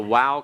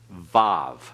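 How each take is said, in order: First: The name begins and ends with a W-like sound. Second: The name begins and ends with a V sound. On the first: This is the classical pronunciation. "the wow can also be called Vav" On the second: This is the modern pronunciation. "put a V on each end of it. That's modern Hebrew pronunciation"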